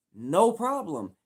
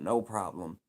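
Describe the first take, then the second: First: "No problem" drawn out slow, high and loud, leaning on "No"; "No problem" said big and slow for emphasis; emphatic repeat. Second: Said in the usual way. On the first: Shown as a demonstration. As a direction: hammer home "No problem" slowly and loudly. Repeats it, then stresses it.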